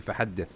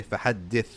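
First: "فحدث" with the last ث swallowed; lost final tha. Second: "فحدث" ending in a clear breath of th; audible final tha. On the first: Teacher showing the easy mistake, final tha inaudible. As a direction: say "فحدث" letting the final th vanish. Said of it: "easily lose the tha here by saying". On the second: Teacher correcting the mistake, final tha enunciated. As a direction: say "فحدث" and let the final ث be heard. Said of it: "But no, you have to say". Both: Shown as a demonstration.

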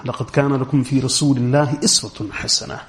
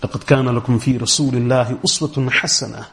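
First: "إِسْوَةٌ" recited with an opening i, iswatun; kasra reading. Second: "أُسْوَةٌ" recited with an opening u, uswatun; dhamma reading. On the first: Lecturer shows the other qira'at, "إِسْوَةٌ" with an i. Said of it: "most of the other qira'at are". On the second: Lecturer recites for qira'at students, "أُسْوَةٌ" with a u. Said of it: "with a dhamma or the kasra". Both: Shown as a demonstration.

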